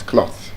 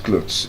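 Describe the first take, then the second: First: "cloth" whispered with a short o and th; correct cloth. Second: "clothes" said as the wrong word for "cloth". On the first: Teacher corrects the class with a whispered "cloth". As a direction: give "cloth" clean and soft. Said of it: "it's cloth". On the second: Teacher shows the class the wrong "clothes". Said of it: "This is not clothes". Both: Shown as a demonstration.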